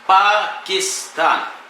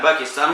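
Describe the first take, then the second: First: The word begins with a p sound. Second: The word begins with a b sound. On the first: This is the original form of the name. "في الأصل باكستان بالباء" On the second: This is how it is commonly said in Arabic. "اللي نقول باكستان"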